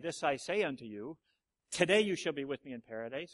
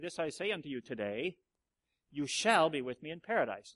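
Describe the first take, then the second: First: The pause comes before the word today. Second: The pause comes after the word today.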